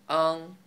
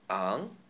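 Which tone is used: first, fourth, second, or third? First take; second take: first; second. First: It is said in the first tone. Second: It is said in the second tone.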